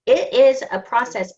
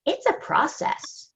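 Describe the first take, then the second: First: "is" punched louder; stress on IS. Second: Said in the usual way. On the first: Real, not acted. Coach insisting to the group on the call, stress on "is". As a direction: lean firmly on the word "is".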